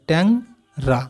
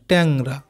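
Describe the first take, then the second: First: "ট্যাং ... রা" with a clear pause between the parts; broken into syllables. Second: Said in the usual way. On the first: Shown as a demonstration. Teacher splitting a word for pupils, "ট্যাং ... রা" syllable by syllable. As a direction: say "Tang", stop, then "রা" separately. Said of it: "কেটে কেটে যদি উচ্চারণ করি". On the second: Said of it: "এইভাবে কেটে কেটে উচ্চারণ করবে".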